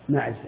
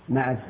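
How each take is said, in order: The two takes are said the same way.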